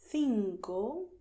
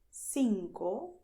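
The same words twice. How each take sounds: First: The first consonant is a lisped th sound. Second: The first consonant is a plain s sound. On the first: The speaker is from Spain. "I make this lisp because I come from Madrid" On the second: The speaker is from Latin America. "they do not lisp"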